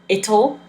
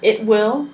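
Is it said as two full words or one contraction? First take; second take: contraction; two words. First: It is said as one short contracted word. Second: It is said as two full separate words. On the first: "but it will is pronounced it'll" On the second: "but it will is pronounced it'll"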